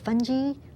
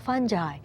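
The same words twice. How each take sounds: First: It is said in a British pronunciation. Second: It is said in a non-British pronunciation.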